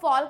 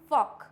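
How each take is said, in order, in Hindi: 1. इस शब्द 'folk' में L की ध्वनि उच्चारित होती है। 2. इस शब्द 'folk' में L की ध्वनि साइलेंट है। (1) "इसको फॉल्क नहीं पढ़ते हैं" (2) "इसको पढ़ते हैं हम फॉक"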